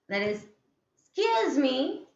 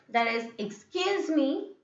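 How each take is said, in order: The two takes are said the same way.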